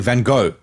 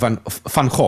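First: The name is pronounced the American way. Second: The name is pronounced the Dutch way. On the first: The speaker calls it wrong. "the Americans, they say Van Gogh" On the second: The speaker calls it right. "it's technically Van Gogh"

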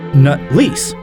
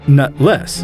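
First: The second syllable sounds like 'lease'. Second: The second syllable sounds like 'less'. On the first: The bearer rents his testicles. "like how the Chancellor pronounces it" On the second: The bearer lacks testicles. "I'm pretty sure his family name is Nutless"

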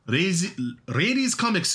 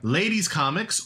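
First: It is pronounced with Japanese-style sounds. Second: It is pronounced with plain English sounds.

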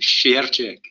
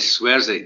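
First: The surname gets its original Polish pronunciation. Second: The surname gets an anglicized pronunciation. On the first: The speaker calls it right. "I've got to say it properly" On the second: The speaker calls it wrong. "says Swersey"

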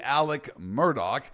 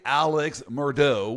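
First: The name is said with a hard K sound. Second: The name is said without a hard K sound. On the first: "It's a hard K sound. But I'm going to try to say Alec Murdaugh" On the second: "If I say Alex Murdaugh, we all know who I'm talking about"

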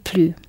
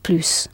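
First: The final s is silent. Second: The final s is clearly pronounced. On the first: It means no more or no longer. "you don't sound the s at the end" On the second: It means more. "you sound the s clearly at the end"

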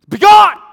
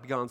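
First: The word is said loudly and with force. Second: The word is said softly and without force. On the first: The speaker calls it right. "there's an exclamation point right there" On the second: The speaker calls it wrong. "he didn't say it like that"

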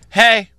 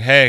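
First: Said in a lively, upbeat voice. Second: Said in a flat, low, gloomy voice. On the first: It imitates the mother's greeting. "She goes, in her voice" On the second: It imitates the speaker's own mopey reply. "because I talk like Eeyore"

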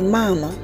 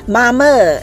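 First: It is said at a lower pitch. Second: It is said at a higher pitch.

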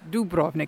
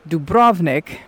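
First: The stress is on the first syllable. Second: The stress is on the second syllable.

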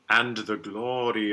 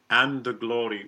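First: The D of 'and' is clearly released. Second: The D of 'and' is dropped into 'the'. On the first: The speaker calls it right. "I would like a good D" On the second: The speaker calls it wrong. "which I don't care for"

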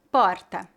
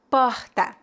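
First: The R is weak, as in São Paulo. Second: The R is strong, as in Rio.

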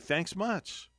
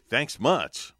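First: It sounds warm and sincerely grateful. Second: It sounds sarcastic and displeased.

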